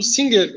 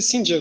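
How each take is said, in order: First: The g is pronounced as a hard g. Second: The g is not pronounced as a hard g. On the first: This is how the family at home called it. "para mim, conhecia como Singer" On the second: This is probably the proper pronunciation. "deve ser Singer"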